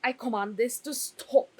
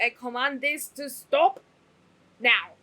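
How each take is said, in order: First: Mock queenly order, a bit louder; regal command. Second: Mock royal order, much louder on now; booming command. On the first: Queen ordering the crying to stop, haughty. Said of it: "she was like". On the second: Fan imitating the queen, booming. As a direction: bellow the last word like a queen. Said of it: "It's like".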